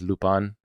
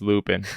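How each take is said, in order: First: The name is said in its original foreign way. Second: The name is said as English spelling suggests. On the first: "the proper pronunciation of Lupin is Lupin" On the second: "it's Lupin on, on just reading it"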